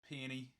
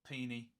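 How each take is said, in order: The two takes are said the same way.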